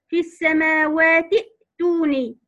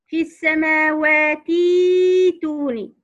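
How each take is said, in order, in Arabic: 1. الحركة التي بعد التاء تبقى قصيرة. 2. الحركة التي بعد التاء تُمَدّ مدًّا طويلًا. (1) "بالنسبة لسيدنا حفص ... لا مد فيها" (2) "بالنسبة لقراءة ورش ... نشبه حركة الكسرة الموجودة في التاء"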